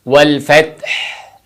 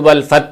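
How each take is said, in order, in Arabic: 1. يُنطق صوت الهاء الأخيرة بوضوح. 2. يُحذف صوت الهاء الأخيرة. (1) "ऐसे" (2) "बाद लोग तो वल फत पढ़ते हैं, आगे हा की आवाज़ आती ही नहीं"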